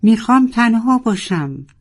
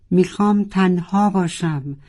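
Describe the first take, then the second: First: High, loud anguished cry; desperate shout to be left alone. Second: Fading shout. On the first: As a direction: roar it out in despair. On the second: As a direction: repeat dropping back to normal pitch. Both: A narrator's reading. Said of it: "و فریاد زد".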